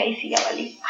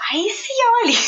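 First: Very soft, barely voiced aside; hushed dread. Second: Retold panic in a much higher voice; high-pitched alarm. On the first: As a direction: say it under your breath as a retold thought. Retold panicked thought, first take. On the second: Same thought repeated, pitched high.

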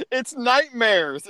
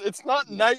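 First: Nightmares said slowly as night-mares, with mare like air; correct nightmare. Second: Imitating nightmares said as night-meers; mock mispronounced nightmare. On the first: Shown as a demonstration. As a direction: nightmares spoken slowly, mare rhyming with care. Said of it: "how do you think this word is spelled?". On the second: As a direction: nightmares with mare like mere, mocking. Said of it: "you keep saying nightmares".

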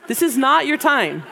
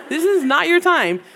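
First: Half-laughing, "not" leaned on and falling; laughing warning to the ladies; laughing through it. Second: Higher and louder, "is" stressed with a fall; insistent reminder to sleepy moms; firm emphatic repeat. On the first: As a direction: chuckle while stressing "not". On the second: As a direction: hammer "This is not your time" home. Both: Real, not acted.

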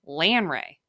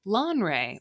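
First: Broad Midwestern flat A in "Lanre", LAN-ray; Midwestern accent. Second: Said in the usual way. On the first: Shown as a demonstration. Podcaster feeling particularly Midwestern, "Lanre" in a broad Midwestern accent. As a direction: punch out a Midwestern "Lanre", louder. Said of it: "if I'm feeling particularly Midwestern". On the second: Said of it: "or if I'm feeling particularly Midwestern".

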